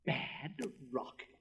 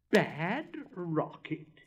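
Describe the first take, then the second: First: Puzzled repeat. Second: Loud, very slow, higher indignant repeat. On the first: Rocket repeating the boy's insult, slow and puzzled. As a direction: turn the word over in disbelief. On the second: Rocket flung into the air, loudly indignant. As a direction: stretch each word out in outrage. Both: Acted.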